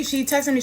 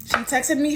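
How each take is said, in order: First: "texted" stressed, falling after it. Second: "me" lifted and stressed at the end; excited stress on "me". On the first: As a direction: hit "texted", she TEXTED me. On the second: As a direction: lean into "me", She texted ME. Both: Retold or imitated. Excited retelling, repeated for emphasis.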